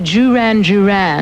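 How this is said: The name is said the British way. "you say"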